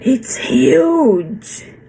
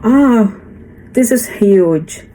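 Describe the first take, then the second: First: Huge is said with strong, expressive emphasis. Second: Huge is said flatly, without emphasis.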